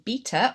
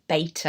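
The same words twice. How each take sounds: First: Beta is said in a non-American way. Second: Beta is said the American way.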